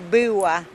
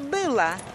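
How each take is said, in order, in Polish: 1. Ł brzmi jak półsamogłoska w. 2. Ł brzmi jak zębowe l. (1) "Kiedyś tam na wsi to zawsze nie mówiło się była" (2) "tylko była. O tak"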